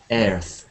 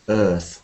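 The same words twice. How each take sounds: First: The vowel sounds like the one in chair. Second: The vowel sounds like the one in bird. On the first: The speaker calls it wrong. "one of the most common mispronunciations of this is earth, earth, like this. Sounds a bit like chair" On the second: The speaker calls it right. "the key vowel sound here is like bird and sir"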